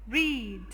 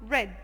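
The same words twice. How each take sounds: First: The vowel is long, like in 'reed'. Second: The vowel is short, like in 'red'. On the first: The action happens now or habitually. "in the present it's called read" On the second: The action happened in the past. "in the past it becomes read"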